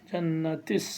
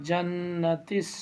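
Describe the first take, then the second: No difference in how they are said.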